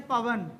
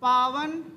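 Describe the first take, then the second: First: पवन said with a short a in the first syllable, slowly; पवन with a clipped short a, set against पावन. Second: पावन said with a long, stretched aa in the first syllable; पावन with a clearly long aa, set against पवन. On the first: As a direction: keep the first vowel of पवन short, pa-van. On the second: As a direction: draw out the first vowel of पावन, paa-van. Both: Shown as a demonstration. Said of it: "अब देखिए, जैसे पवन है".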